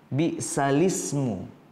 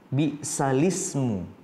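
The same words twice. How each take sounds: The two takes are said the same way.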